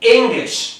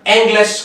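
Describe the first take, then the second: First: The first vowel sounds like short 'ih'. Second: The first vowel sounds like 'eh'. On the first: The speaker calls it right. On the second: The speaker calls it wrong.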